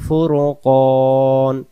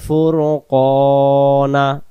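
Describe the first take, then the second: First: The word ends on the consonant n. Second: The word ends with a final vowel. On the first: The reader stops and takes a breath here. "দম ছেড়ে দিলে আমরা উচ্চারণ নুন জবর না না পড়ে ফুরকন এভাবে পড়বো" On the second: The reading continues without a stop. "ওয়া আনজালাল ফুরকানা"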